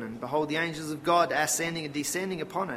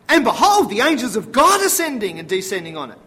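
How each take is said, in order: First: It is read in a flat, routine way. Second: It is read expressively, with dramatic emphasis.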